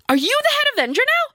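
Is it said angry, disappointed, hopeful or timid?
hopeful. It sounds hopeful.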